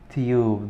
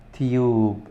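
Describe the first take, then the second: First: It is said in a British accent. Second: The same.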